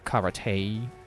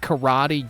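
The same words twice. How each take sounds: First: The final vowel is a short 'eh' sound. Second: The final vowel is a long 'ee' sound. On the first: It follows the original Japanese pronunciation. "if you pronounce it the way it's supposed to be pronounced" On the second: It follows the common English pronunciation. "you doofus"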